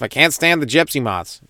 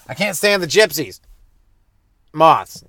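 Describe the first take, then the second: First: It is said without a pause before the last word. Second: It is said with a pause before the last word. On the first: It is a complaint about an insect. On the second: It first sounds like an insult to a group of people.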